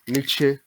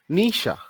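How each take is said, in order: First: The name is said in a non-German way. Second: The name is said the German way. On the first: This is how many people say it. The speaker calls it wrong. "Many people call him Nietzsche" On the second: This is how it is said in Germany. The speaker calls it right. "in Germany, the real pronunciation goes like this"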